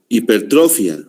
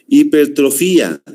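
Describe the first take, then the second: First: "Hipertrofia" with stress on -tro-, ending -fia as one syllable; first stress reading. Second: "Hipertrofía" with stress on the í, hiper-tro-FÍ-a; corrected stress. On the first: Teacher reading the term to students, stress on tro. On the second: Teacher correcting his own reading for the class, stress on fí. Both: Shown as a demonstration. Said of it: "No, perdón".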